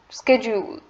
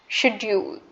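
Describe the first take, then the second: First: It is said in an American accent. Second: It is said in an Indian accent. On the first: "according to the American English" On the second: "according to the Indian English"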